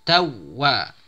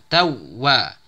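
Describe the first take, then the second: No difference in how they are said.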